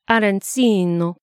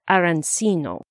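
First: It is said with an Italian accent. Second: It is said with a plain English accent.

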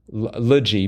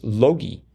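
First: It sounds like the ending of biology. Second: It sounds like the name Loki. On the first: The speaker calls it wrong. "I wanted to say logy, ... and if it was biology" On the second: The speaker calls it right. "but it's logy, ... sort of like the Norse god"

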